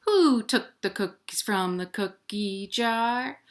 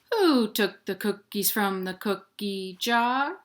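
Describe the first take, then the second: No difference in how they are said.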